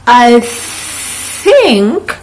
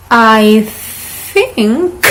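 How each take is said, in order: Both takes have the same delivery.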